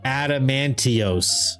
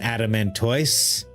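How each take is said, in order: First: The word ends with a 'tee-oss' sound. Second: The word ends with a 'toise' sound. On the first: The speaker calls it wrong. "he kept pronouncing this Adamantios" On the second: The speaker calls it right. "I call it an Adamantoise"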